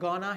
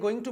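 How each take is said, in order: First: The words are blended into one reduced word. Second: Both words are said fully and separately. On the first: "slang" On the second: "एक गोइंग टू पढ़ा था"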